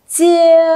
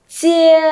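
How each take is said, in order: No difference in how they are said.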